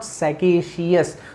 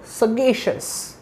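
First: The ending of the word is said with a separate 's' sound. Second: The ending of the word is said as 'shus'. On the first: The speaker calls it wrong. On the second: The speaker calls it right.

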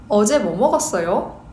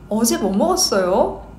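No difference in how they are said.

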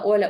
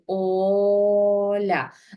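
First: The first vowel is short and quick. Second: The first vowel is clearly drawn out. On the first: The child may miss the shared sound. The speaker calls it wrong. "ви не прийшли і не сказали" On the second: The child can clearly hear the shared sound. The speaker calls it right. "ми чітко протягуємо"

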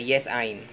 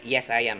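First: The words are joined into the short form 'I'm'. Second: The words are said as two separate words 'I am'. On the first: The speaker calls it wrong. "Not contracted form, we don't say" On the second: The speaker calls it right. "We say"

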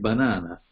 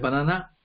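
First: The stress falls on the middle syllable. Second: The stress falls on the last syllable. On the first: The speaker calls it right. "invece di banana" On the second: The speaker calls it wrong. "errori, per esempio nella collocazione dell'accento"

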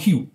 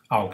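First: The word begins with an h sound. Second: The word begins with a vowel. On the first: This is the literary reading. "它的文读是hugh" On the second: This is the colloquial reading. "白读它念凹"

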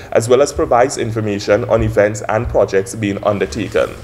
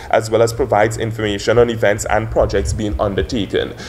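The two takes are said the same way.

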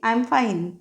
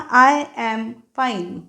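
First: The word 'am' is said quickly and reduced. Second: The word 'am' is said fully and distinctly. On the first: The speaker calls it right. "Fast बोलतो ना आपण भाषा कुठचीही, त्या पद्धतीने" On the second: The speaker calls it wrong. "I ॲम हा full form"

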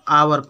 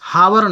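First: The word begins with a vowel sound. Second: The word begins with an h sound. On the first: The speaker calls it right. "आवर पढ़ते हैं" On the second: The speaker calls it wrong. "हावर नहीं पढ़ते हैं"

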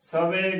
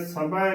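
First: It has a v sound and ends in 'e'. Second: It has a bh sound and ends in 'ai'. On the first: The speaker calls it wrong. "ਸਵੇ ਗਲਤ ਉਚਾਰਨ ਹੈ" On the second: The speaker calls it right. "ਸਭੈ ਕਰਨਾ ਹੈ"

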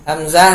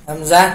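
No difference in how they are said.

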